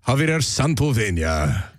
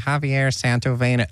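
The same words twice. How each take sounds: First: It is said in a Spanish-language TV announcer voice. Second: It is said flatly with a plain American accent.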